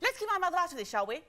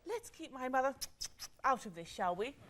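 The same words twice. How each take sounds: First: It is said rapidly. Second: It is said amorously.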